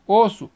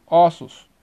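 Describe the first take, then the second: First: "osso" with closed ô at the start. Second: "ossos" with open ó at the start. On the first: Teacher giving a singular example, closed O. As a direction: say "osso" as "OH-soo". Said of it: "O fechado". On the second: Teacher giving a plural example, open O. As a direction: say "ossos" as "AW-soos". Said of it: "para o aberto". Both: Shown as a demonstration.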